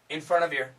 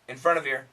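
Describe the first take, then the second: First: The V sound links into 'your'. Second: The same.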